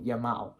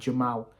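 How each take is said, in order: First: The name begins with a Y sound. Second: The name begins with a J sound. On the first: The speaker calls it right. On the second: The speaker calls it wrong. "not Jamal"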